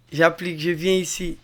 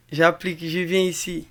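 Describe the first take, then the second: No difference in how they are said.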